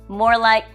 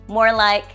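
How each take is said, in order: No difference in how they are said.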